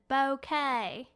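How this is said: It is said in a heavy Southern accent. "the most southern accent ever"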